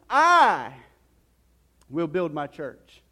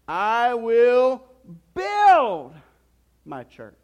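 First: The stress falls on the word "I". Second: The stress falls on the word "build". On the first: "let's put some emphasis on that phrase here" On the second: "And then you can say it this way"

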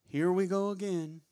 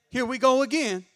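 First: It sounds weary and self-pitying. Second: It sounds bold and challenging.

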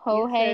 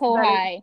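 First: The name ends with an 'ay' sound. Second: The name ends with an 'eye' sound. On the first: The speaker calls it right. "The EI at the end makes an A sound" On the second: The speaker calls it wrong. "I said"

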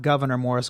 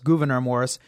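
First: The first name sounds like the word governor. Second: The first name sounds like goo-ver-neer. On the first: The speaker calls it wrong. "not Governor Morris" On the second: The speaker calls it right. "I said that properly"

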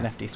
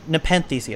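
First: The first word is said with an f sound. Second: The first word is said without an f sound. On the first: The speaker calls it wrong. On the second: The speaker calls it right.

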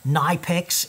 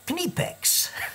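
First: The word is said in two syllables. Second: The word is said in three syllables. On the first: The speaker calls it wrong. "a lot of people call them Knipex incorrectly" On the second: The speaker calls it right. "It's 1-2-3 Knipex"

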